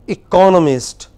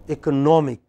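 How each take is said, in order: First: ECONomist, CON loud and long; teacher's clear eCONomist; stress on second syllable. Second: EcoNOMic, weight moved onto NOM; teacher's contrasting ecoNOMic; stress on third syllable. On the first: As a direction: model "economist" punching the CON. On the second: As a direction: model "economic" leaning on NOM. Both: Shown as a demonstration. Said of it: "You see that how it changes?".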